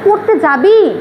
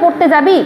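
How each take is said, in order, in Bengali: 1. এটা অনিচ্ছুক, না-চাওয়ার সুরে জিজ্ঞাসা করা হচ্ছে। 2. এটা সাধারণ, নিরপেক্ষ প্রশ্ন হিসেবে জিজ্ঞাসা করা হচ্ছে। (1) "আজকে পড়তে যেতে মন চাচ্ছে না, তুইও যাস না" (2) "এর মানে কি সোজা ভাষায় পড়তে যাবি কি যাবি না জিজ্ঞাসা করছো"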